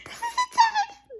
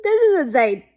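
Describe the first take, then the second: First: Much higher, strained, teary squeak, slow. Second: Said in the usual way. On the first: Real, not acted. Fan stunned by the twist, squeaky teary disbelief. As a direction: squeeze it out, near tears with excitement.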